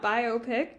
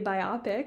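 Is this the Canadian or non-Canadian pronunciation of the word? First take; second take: non-Canadian; Canadian. First: It is pronounced the usual non-Canadian way. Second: It is pronounced the way Canadians tend to. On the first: "instead of biopic" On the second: "Canadians tend to say biopic"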